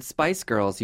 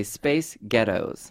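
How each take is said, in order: First: Said in the usual way. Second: Scottish accent trick. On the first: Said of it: "if you wanna say the word Spice Girls". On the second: Shown as a demonstration. Host teaches guest to say Spice Girls, Scottish accent. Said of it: "you just say Space Ghettos".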